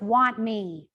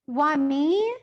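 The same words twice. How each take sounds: First: The voice falls at the end. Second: The voice rises at the end.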